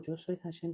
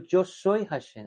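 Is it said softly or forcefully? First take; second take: softly; forcefully. First: It is said softly and gently. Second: It is said forcefully, with authority.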